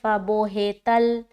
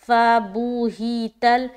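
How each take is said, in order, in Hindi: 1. स्वर 'o' और 'e' की आवाज़ की तरफ़ झुकते हैं। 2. स्वर शुद्ध 'u' और 'i' की आवाज़ हैं। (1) "बो हे नहीं पढ़ना" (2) "पेश और जेर में आवाज मजहूल ना हो"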